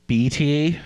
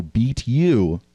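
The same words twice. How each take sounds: First: "B T", with "ye" for "you"; local pronunciation. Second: "beat you" with a full, long "you"; American pronunciation. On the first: Same guy asks about the team, "B T" as "beat ye". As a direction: say "B T" as "beat ye", drawn out. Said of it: "Oh, beat you". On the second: American finally gets the question, "beat you" with a long "you". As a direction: slowly spell out "beat you" as understood. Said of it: "asked me if this team B T". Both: Retold or imitated.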